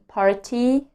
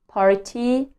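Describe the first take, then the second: First: The T is a clear, crisp T sound. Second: The same.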